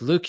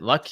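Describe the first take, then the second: First: It has a long 'oo' vowel, like 'Luke'. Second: It has a short vowel, like 'luck'. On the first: The speaker calls it right. "but it's Luke" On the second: The speaker calls it wrong. "which I always pronounced it Luck"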